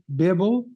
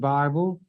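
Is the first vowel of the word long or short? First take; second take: short; long. First: The first vowel is a short 'ih' sound. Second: The first vowel is a long 'eye' sound. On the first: This pronunciation matches the word biblical. The speaker calls it right. "I pronounce it correctly Bible" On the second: This is the common pronunciation. The speaker calls it wrong. "you mispronounce it Bible"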